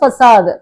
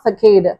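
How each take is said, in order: First: The middle consonant is a soft s sound. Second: The middle consonant is a hard k sound. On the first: The speaker calls it right. "இதை வந்து ஃபசாது" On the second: The speaker calls it wrong. "Not ஃபெகேடு"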